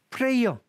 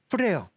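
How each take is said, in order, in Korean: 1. 완전한 'ay' 모음이 있는 두 음절이에요. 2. 'ay' 모음이 없는 한 음절이에요. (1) "프레이어 Y 발음을 다 합니다" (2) "Y를 발음을 안 하는 경우입니다... 프레어라고 발음. 이가 없어요"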